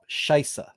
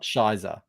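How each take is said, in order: First: The middle consonant is a clear s sound. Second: The middle consonant is not a clear s sound. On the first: The speaker calls it right. "With that s" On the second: The speaker calls it wrong. "not Shizer"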